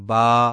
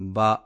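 First: The vowel is stretched long. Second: The vowel is cut short. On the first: The speaker calls it right. "کھڑے زبر کو کھینچ کر ہی پڑھیں" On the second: The speaker calls it wrong. "بغیر کھینچے ... الف کم ہو جاتا ہے"

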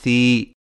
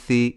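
First: The vowel is drawn out and long. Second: The vowel is short and clipped. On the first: "تھوڑا سا کھینچ کر پڑھا جاتا ہے" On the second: "بغیر کھینچے اور جھٹکا دیے پڑھا جاتا ہے"

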